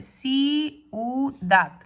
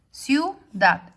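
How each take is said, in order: First: "ciudad" slowly pulled apart into ci-u-dad; "ciudad" with i and u held as separate beats; separated vowels. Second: "ciudad" with i and u glided into one syllable; "ciudad" said in two syllables, ciu-dad; joined diphthong. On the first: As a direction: break "ciudad" into three distinct syllables. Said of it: "separar y poner ciudad". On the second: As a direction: run the vowels of "ciudad" together as one beat. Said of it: "en lugar de separar". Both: Shown as a demonstration.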